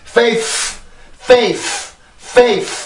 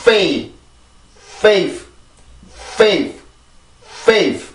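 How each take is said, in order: First: "faith" as FAYF, final f as strong as the first; overdone final f in "faith", wrongly matching the first; equally strong f's. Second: "faith" as FAYF, full first f, light last f; one-syllable "faith" ending in a faint f; weak final f. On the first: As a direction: blow a long, full f at the end of "faith". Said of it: "이렇게 만들어내서는 절대로 안 되는 소리고". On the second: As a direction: blow the first f in "faith", barely release the last. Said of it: "앞에 있는 F와 뒤에 있는 F의 공기의 양". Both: Shown as a demonstration.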